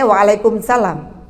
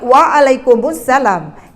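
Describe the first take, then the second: First: No vowel is heard between kum and salam. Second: An u vowel links kum to salam. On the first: The speaker calls it wrong. "selama ini saya waalaikumsalam" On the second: The speaker calls it right. "yang betul adalah waalaikumsalam"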